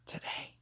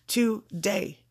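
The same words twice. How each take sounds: First: Today. whispered, breathy and very soft. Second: Said in the usual way. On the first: Shown as a demonstration. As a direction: whisper Today. as a final secret. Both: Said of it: "all beautiful things today".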